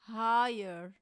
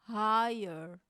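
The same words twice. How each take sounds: The two takes are said the same way.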